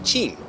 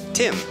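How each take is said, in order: First: It is said in a São Paulo accent. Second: It is said in a Northeastern accent. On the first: "quando estava em São Paulo, tinha que aprender me apresentar como" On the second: "Mas aqui posso dizer"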